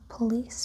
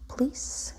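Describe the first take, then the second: First: The first vowel is pronounced, giving two syllables. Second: The first vowel is dropped, giving one syllable.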